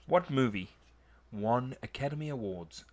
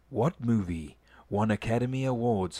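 First: It is read in a normal speaking voice. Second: It is read in a put-on announcer voice.

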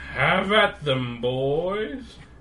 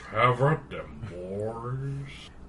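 First: It is said in a normal voice. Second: It is said in a low, deep voice.

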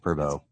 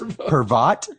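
First: The name ends without any T sound. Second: The name ends with an audible T sound. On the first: The speaker calls it right. "No, it's silent T" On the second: The speaker calls it wrong. "This Pervot?"

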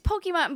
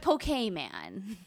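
First: The last syllable sounds like 'mon'. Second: The last syllable sounds like 'man'. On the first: "It's Pokemon" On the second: "I pronounce it Poke Man"

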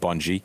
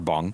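First: The name ends with a sounded final vowel. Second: The name ends without a final vowel. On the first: "I guess I could pronounce the E and call it Bungie" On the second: "but I much prefer Bung"

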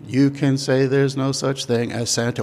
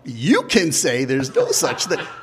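First: It is said flat, almost on one note. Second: It is said with punchy, exaggerated emphasis.

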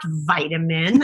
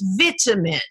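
First: It is said the Canadian way. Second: It is said the British way. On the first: This is the form the broadcaster objected to. The speaker calls it wrong. "also for being Canadian" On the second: This is the form the broadcaster required. The speaker calls it right. "it's vitamin"

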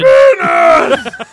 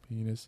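First: The word is said very loudly. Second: The word is said very quietly.

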